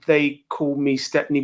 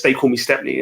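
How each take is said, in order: First: Slow, drawn-out announcer-style name; slow, grand self-introduction. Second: Said in the usual way. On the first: Real, not acted. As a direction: stretch out the nickname like an introduction. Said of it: "doesn't sound right when I say it like that". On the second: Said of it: "I don't know why I say it like that".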